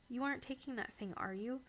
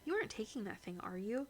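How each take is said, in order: First: It is said in a calm, ordinary voice. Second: It is said in a raised, disbelieving voice.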